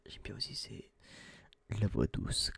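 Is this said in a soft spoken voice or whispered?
whispered. It is whispered without voicing. "c'est le chuchotement"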